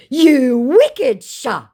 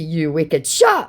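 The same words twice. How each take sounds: First: Very slow, high, loud impression; mock indignant scammer. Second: Said in the usual way. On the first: Scammer reproaching the baiter, mock indignant. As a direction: drag out the reproach in mock outrage.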